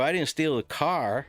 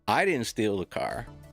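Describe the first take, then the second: First: The stress is on "car". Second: The stress is on "I".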